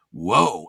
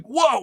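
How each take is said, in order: First: Low, understated whoa; Keanu's "whoa". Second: High, thrilled whoa; amazed delight. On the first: Actor reacting to hearing about furries, low whoa. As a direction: drop it low like the laid-back actor. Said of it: "He said, "Whoa". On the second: Teller thrilled the actor said it, amazed. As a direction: squeal it in awe, pitched way up. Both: Retold or imitated.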